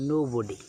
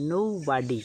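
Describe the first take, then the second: First: Nobody the British way, no-bo-dee, lower pitch; British pronunciation. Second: Nobody with American vowels, nou-bah-dee; American pronunciation. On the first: Teacher shows the British way to say nobody. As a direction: say nobody the British way, rounded middle vowel. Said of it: "British উচ্চারণ হচ্ছে". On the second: Teacher shows the American way to say nobody. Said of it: "American উচ্চারণ হচ্ছে". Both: Shown as a demonstration.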